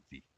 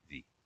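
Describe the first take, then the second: Both takes have the same delivery.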